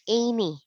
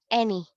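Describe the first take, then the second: First: The first vowel is not an 'eh' sound. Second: The first vowel is an 'eh' sound. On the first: The speaker calls it wrong. "a lot of Filipinos read this as any. Please do not read it as any" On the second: The speaker calls it right. "It's an E sound"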